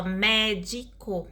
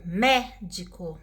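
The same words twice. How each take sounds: First: "médico" parted evenly into mé, di, co; syllable by syllable. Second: Slow "médico" with a long, weighted first syllable; stress on MÉ. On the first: Teacher dividing an example word, syllable by syllable. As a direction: say "médico" in three separate syllables. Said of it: "Por exemplo". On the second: Teacher pointing out the tonic syllable, stress on MÉ. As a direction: lean on the "mé" of "médico". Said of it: "a sílaba tônica aí é mé". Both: Shown as a demonstration.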